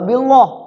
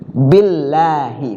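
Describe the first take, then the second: First: The L sound is heavy and thick. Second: The L sound is light and thin. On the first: The speaker calls it wrong. "nggak billah, kagak" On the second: The speaker calls it right. "Harus tarkik"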